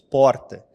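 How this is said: The R sound is strong and marked. This is how the speaker's home region says it. "E nós falamos muito o R, que nem porta"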